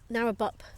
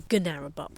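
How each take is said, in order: First: The word starts with an N sound, no G. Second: The word starts with a sounded G before N. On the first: "I don't know what the silent G thing is" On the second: "spelled with a G, so Gunarabuk almost"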